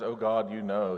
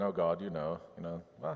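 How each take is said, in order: First: A mild mock accusation, words pushed through the teeth; half-acted bitter reproach; accusing through teeth. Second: Easy, chatty and quieter, as if over coffee; breezy small talk with God; casual coffee chat. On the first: Jeremiah accusing God, a touch of anger through his teeth. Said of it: "he is accusing God through his teeth". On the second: Retold or imitated. Jeremiah chatting to God like an old friend, casual and offhand. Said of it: "not talking to God like they're having coffee".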